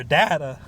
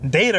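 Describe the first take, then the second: First: "data" with a short A, DAT-uh; British-style "data". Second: "Data" with a long A, DAY-tuh; American "data". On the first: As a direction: say "data" as DAH-tuh, first vowel open. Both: Shown as a demonstration. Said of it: "Data or data?".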